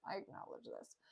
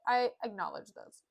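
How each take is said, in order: First: Barely audible whispered aside; under the breath. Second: Said in the usual way. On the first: Retold or imitated. Grumio conceding some people were unprepared, whispered. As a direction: repeat it as a tiny muttered admission.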